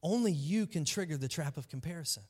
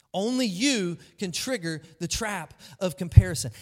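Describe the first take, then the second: First: Said in the usual way. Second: "you" hit loud and firm; stress on you. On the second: Shown as a demonstration. Preacher drives home that "you" trigger it. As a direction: punch the word "you" hard. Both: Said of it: "preacher repeats key line".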